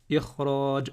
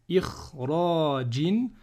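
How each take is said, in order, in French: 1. Le mot se termine brusquement sur la consonne. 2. Le mot se termine par un son voyelle '-in'.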